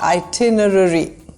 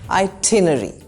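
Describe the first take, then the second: First: Both R sounds are clearly pronounced. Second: Only the second R sound is pronounced. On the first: "Americans, however, love their R's and they pronounce both" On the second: "In British English, we only pronounce the second R and the first R is silent"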